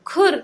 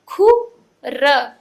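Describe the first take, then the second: First: "खुर" as one blended word, higher pitched; joined up. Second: "खु", pause, "र", slow and loud; broken into sounds. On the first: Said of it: "एक साथ में मिला के पढ़ें". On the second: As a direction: sound out "खु" and "र" separately. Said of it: "तोड़ तोड़ के पढ़ना". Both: Shown as a demonstration.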